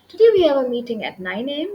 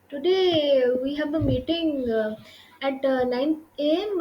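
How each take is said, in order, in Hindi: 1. यह बिना किसी भराव ध्वनि के सहजता से बहता है। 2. इसमें हिचकिचाहट वाली भराव ध्वनियाँ बीच-बीच में आती हैं।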